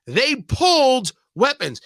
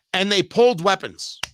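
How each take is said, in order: First: "pulled" leaned on, the whole line slowed; slow stress on pulled. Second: Said in the usual way. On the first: Shown as a demonstration. Host repeating the fact for his audience, slow stress on pulled. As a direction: drag out "They pulled weapons" with weight on pulled.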